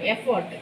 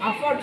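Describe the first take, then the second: First: The word begins with an 'e' vowel sound. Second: The word begins with an 'a' vowel sound. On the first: The speaker calls it right. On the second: The speaker calls it wrong. "అఫోర్ట్ కాదు"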